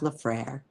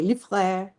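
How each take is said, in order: First: The name is pronounced with an American sound. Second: The name is pronounced with a French sound. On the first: "but it's just Lefrère" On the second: "I never use the French pronunciation, but you could say Lefrère"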